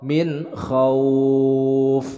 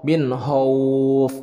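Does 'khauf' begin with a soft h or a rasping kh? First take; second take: rasping kh; soft h. First: The word begins with a rasping throat kh. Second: The word begins with a soft h sound. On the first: The speaker calls it right. "gha itu dari ujung tenggorokan. Kha" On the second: The speaker calls it wrong. "banyak yang sering juga salah dalam pelafalan huruf kha, dibacanya ho"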